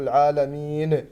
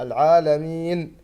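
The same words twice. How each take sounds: First: العالمين with a bouncing qalqala on the final نون; wrong العالمين. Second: العالمين ending on a clean still نون; correct stop. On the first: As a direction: show the mistaken bounced ending of العالمين. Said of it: "ولا نقلقل الساكن نقول". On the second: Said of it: "لا، العالمين". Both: Shown as a demonstration.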